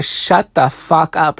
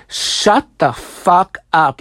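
First: Said in the usual way. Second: Slow, word-by-word retort; each word of "Shut the fuck up" drawn out and stressed; imitated snapping. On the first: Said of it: "She tells Sydney to". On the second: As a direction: act out being fed up, stretching SHUT, FUCK and UP. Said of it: "She fucking snaps".

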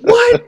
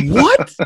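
First: Very high, loud incredulous "What?"; squeaky disbelief. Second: High, loud stunned "What?"; shocked high what. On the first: Repeating Bill's joke back, very high squeal of disbelief. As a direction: squeal it, even more disbelieving. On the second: Hearing Bill expects his own hate text, high shocked yelp. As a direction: blurt it out in disbelief. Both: Retold or imitated.

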